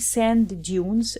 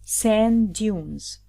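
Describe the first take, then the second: First: Both D sounds are pronounced separately. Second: The two D sounds merge into one D. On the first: The speaker calls it wrong. "We don't say sand dunes" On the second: The speaker calls it right. "no, sand dunes"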